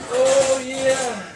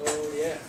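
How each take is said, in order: First: High-pitched joking oh yeah; meme voice. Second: Said in the usual way. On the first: Acted. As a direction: pitch way up for a laugh. Joking for the memes.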